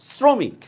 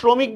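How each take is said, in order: First: The word begins with an 's' sound. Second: The word begins with a 'sh' sound. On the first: The speaker calls it right. "আমরা বলি কি শ্রমিক" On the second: The speaker calls it wrong. "এটা কি শ্রমিক বলি না"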